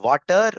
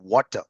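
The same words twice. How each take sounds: First: It is said with a Tamil-influenced pronunciation. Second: It is said with a standard English pronunciation. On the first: "In Tamil, people speak more like water" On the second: "rather than water"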